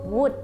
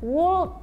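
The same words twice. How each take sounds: First: It is said simply, without a curled tongue. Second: The tongue curls, adding an extra consonant sound. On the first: The speaker calls it right. "Cukup dengan would" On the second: The speaker calls it wrong. "dilafalkan dengan would. Jangan, nanti keselio lidahnya"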